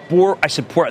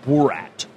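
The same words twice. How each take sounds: First: The name begins with a P sound. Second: The name begins with a B sound. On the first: It names the intended executive. The speaker calls it right. "I said Borat" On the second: It names the film character. The speaker calls it wrong. "not Borat"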